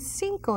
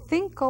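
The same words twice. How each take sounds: First: The first sound is an s sound. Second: The first sound is a th sound. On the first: This is how it is said in other countries. "cinco in other countries" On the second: This is how it is said in Spain. "they would say cinco with a T H sound"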